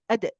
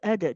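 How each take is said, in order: First: The sound ends with a sudden glottal catch. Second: The sound fades out gently without a catch. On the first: The speaker calls it wrong. "They're adding a hamza at the end" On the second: The speaker calls it right. "So let it come gently"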